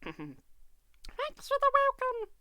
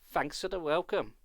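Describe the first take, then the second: First: It is said in a squeaky voice. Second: It is said in a normal voice.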